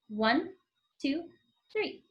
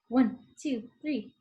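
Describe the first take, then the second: First: It is counted slowly. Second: It is counted faster.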